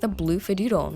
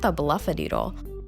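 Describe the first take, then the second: First: The name starts with the word 'blue'. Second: The name starts with the sound 'bluff'. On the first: The speaker calls it right. "it was really obvious that it was the blue Fidoodle" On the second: The speaker calls it wrong. "I was mispronouncing it"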